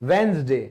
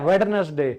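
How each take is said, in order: First: The first d is left out. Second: The first d is pronounced. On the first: The speaker calls it right. "डी तो silent है" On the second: The speaker calls it wrong. "बुधवार को तो नब्बे percent लोग वेडनेसडे"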